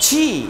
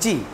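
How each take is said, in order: First: The letter is said hard, with force. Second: The letter is said weakly, without force. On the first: The speaker calls it right. "এটা শক্ত করে বলতে" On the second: The speaker calls it wrong. "অনেকে আমরা বলি জি"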